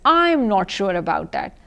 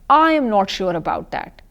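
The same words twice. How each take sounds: First: The words 'I am' are contracted to 'I'm'. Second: The words 'I am' are said in full. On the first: The speaker calls it right. "You read them as" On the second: The speaker calls it wrong. "you don't read it like this"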